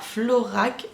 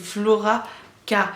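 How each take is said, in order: First: The K is merged into one final syllable. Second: The K is said as a separate letter. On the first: The speaker calls it wrong. "c'est pas Florac" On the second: The speaker calls it right. "c'est Flora K"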